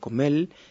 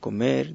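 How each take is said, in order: First: The final r sounds like l. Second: The final r sounds like r.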